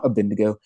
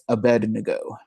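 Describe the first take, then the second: First: The D sound comes after the N. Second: The D sound comes before the N. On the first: The speaker calls it wrong. "it's not Abednego" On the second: The speaker calls it right. "The D before the N"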